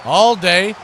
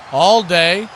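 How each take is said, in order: Both takes have the same delivery.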